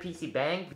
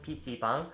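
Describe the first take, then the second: First: The word is said with an anglicized pronunciation. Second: The word is said with a Korean pronunciation. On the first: The speaker calls it wrong. "some people pronounce it PC-bang" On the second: The speaker calls it right. "but it's actually again called PC-bang"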